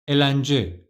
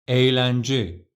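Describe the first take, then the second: First: The first vowel is short. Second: The first vowel is lengthened. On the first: The speaker calls it wrong. "let's say yumuşak G wasn't here" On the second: The speaker calls it right. "yumuşak G is here and the right pronunciation is"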